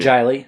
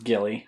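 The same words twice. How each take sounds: First: The name begins with a soft J sound. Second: The name begins with a hard G sound.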